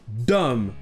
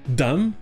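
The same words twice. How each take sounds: First: The vowel is a full open O sound. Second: The vowel is a short reduced schwa sound. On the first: The speaker calls it wrong. "ça ne se prononce pas dumb, fool et less avec les sons O" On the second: The speaker calls it right. "ça se prononcera avec le son court E"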